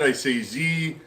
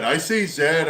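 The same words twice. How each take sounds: First: "Z" said the American way, as "zee"; "Z" pronounced like "zee"; saying Z. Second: "Zed" said the Canadian way, rhyming with bed; "Zed" pronounced as in Canada; saying Zed. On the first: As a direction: say the letter as "Z", rhyming with see. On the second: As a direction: say the letter as "Zed", zed like red. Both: Shown as a demonstration. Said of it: "is it Z or Zed?".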